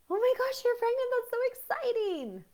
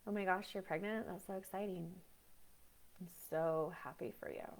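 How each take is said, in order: First: Shrieking high and loud with delight; over-the-top excitement. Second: Dull, soft and lifeless congratulations; flat fake happiness. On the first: Congratulating a pregnant friend, shrieking high and loud with joy. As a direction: squeal the news like you can't contain yourself. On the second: Congratulating a pregnant friend, flat and soft with no feeling. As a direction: say it like you feel nothing at all. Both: Shown as a demonstration. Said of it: "which is more abnormal?".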